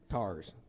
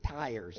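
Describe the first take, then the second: First: The vowel is a flat 'ah' sound. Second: The vowel glides like 'eye'. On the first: The speaker calls it right. "like that's what they really are" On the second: The speaker calls it wrong. "they call tires tires instead of tars"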